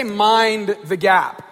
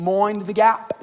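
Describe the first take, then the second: First: British announcement. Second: Mock British accent, "Mind" said as "moin"; imitating a Londoner with "moin the gap"; lightly put-on British voice saying "Mind the gap"; fake British accent. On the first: Retold or imitated. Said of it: "they say". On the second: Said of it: "me trying to have a British accent".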